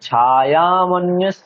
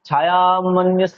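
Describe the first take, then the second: First: The first vowel is drawn out long. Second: The first vowel is short; the second is drawn out. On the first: The speaker calls it right. "তাহলে ছটাও টানতে হবে।" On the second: The speaker calls it wrong. "ছায়া মন্যস্য বললে তো ছটা টানা হলো না, ইয়তে গিয়ে টানা হলো"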